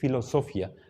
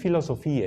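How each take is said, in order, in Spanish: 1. El acento cae en la sílaba con O larga. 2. El acento no está en una sílaba con O. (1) "Esta es una O larga, es la que lleva la fuerza de voz en la palabra" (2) "No es filosofía"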